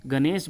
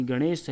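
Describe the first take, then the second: First: गणेश with plain dental N; straight-tongued N in गणेश; everyday mispronunciation. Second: गणेश with retroflex N; curled N in गणेश; correct pronunciation. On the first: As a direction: say गणेश as "ganes". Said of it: "गणेश बोल दिया जाता है". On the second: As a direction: say गणेश as "gaṇes", tongue curled on N. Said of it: "उसका सही वर्तनी गणेश है". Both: Shown as a demonstration.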